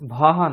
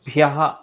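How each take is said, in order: First: The syllable has no y sound after bh. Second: The syllable has a y sound after bh. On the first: The speaker calls it wrong. "ভহ নয়" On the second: The speaker calls it right.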